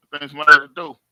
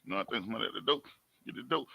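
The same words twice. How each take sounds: First: Called out loud toward the door. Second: Low and much softer, half to himself; hushed aside. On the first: Vlogger hearing a knock, calling it out loudly. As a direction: announce it loudly, like someone's knocking. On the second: Vlogger repeating to himself about the door, hushed and low. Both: Real, not acted.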